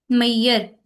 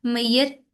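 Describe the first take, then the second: First: मैयर said louder, each sound spelled out clearly; demonstrating a sound. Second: Said in the usual way. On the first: Shown as a demonstration. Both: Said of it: "ये मैयर में जो sound आ रहा है ना".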